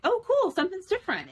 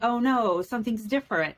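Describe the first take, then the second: First: It sounds excited and happy about the change. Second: It sounds dismayed and worried about the change.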